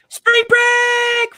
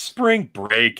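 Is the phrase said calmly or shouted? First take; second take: shouted; calmly. First: The phrase is shouted loudly with high energy. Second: The phrase is said at normal conversational volume. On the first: The speaker calls it right. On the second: The speaker calls it wrong.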